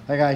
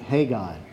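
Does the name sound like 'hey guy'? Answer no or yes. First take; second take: no; yes. First: The name does not sound like 'hey guy'. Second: The name sounds like 'hey guy'.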